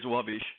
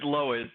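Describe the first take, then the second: First: The name is said the Polish way. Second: The name is said the American way.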